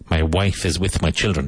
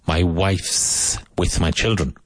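First: Wife and is are said as separate words. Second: Wife and is merge into one syllable.

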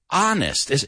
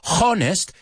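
First: The word begins with a vowel, no H sound. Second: The word begins with an audible H sound. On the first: The speaker calls it right. "No es una O ni se pronuncia la H" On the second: The speaker calls it wrong. "No es honest"

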